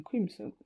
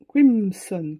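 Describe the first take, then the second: First: Crimson repeated softly to herself, same kwimsɔn; quiet repeat. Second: Crimson said loudly, French-style kwimsɔn; loud careful name. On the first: Crafter quietly repeats the colour name to herself, softly. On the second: Crafter announces the paint colour to viewers, loud and deliberate. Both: Real, not acted.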